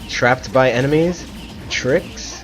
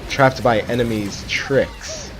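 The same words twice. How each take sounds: First: It breaks after enemies, then tricks stands alone. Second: It runs as one phrase, stressing tricks. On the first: The speaker calls it wrong. "Oh no" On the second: The speaker calls it right. "You gotta put emphasis on the tricks"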